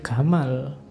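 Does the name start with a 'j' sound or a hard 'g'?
hard g. It starts with a hard 'g', Egyptian style.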